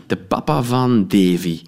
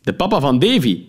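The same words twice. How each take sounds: First: Said in the usual way. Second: De papa van Davy said higher, as the chummy policeman; jovial cop. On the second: Acted. Policeman reminds narrator who he is, chummy. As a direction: sound pleased to be recognised.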